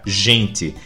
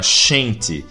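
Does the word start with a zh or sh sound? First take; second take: zh sound; sh sound. First: The word starts with a zh sound. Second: The word starts with a sh sound.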